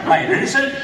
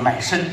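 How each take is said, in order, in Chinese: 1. 中间这个音节很清楚，能听到三个音节。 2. 中间这个音节被吞掉了，只听到两个音节。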